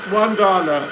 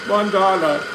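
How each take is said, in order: Both takes have the same delivery.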